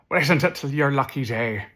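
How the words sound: It is said in an Irish accent.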